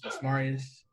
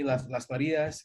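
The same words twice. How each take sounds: First: Las Marias with American R, MAR-ee-us; American pronunciation. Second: Las Marias with Spanish tapped R, ma-REE-as. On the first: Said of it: "American peeps". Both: Shown as a demonstration.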